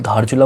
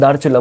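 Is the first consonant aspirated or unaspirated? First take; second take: aspirated; unaspirated. First: The first consonant is breathy and aspirated. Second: The first consonant is plain and unaspirated. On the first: This is the Indian way of saying the name. "ये मैं धा ध बोल रहा हूँ, धारचूला बोल रहा हूँ" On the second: This is the softer Nepali way of saying the name. "ये दारचूला बोल देते हैं"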